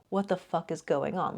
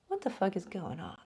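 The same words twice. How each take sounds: First: It sounds frustrated and confused. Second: It sounds curious and intrigued.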